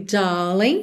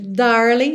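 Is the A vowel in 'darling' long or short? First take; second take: long; short. First: The A vowel is drawn out and prolonged. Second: The A vowel is short and not drawn out.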